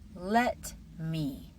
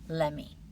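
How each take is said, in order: First: Both words are pronounced fully and separately. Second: The words are blended into one short form.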